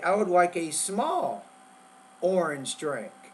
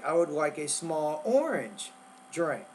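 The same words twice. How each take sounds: First: The word small carries the main stress. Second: The word orange carries the main stress. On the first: The size wanted is small, not large. "you want to emphasize the word small" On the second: The flavor wanted is orange, not lemon. "you want to emphasize the word orange"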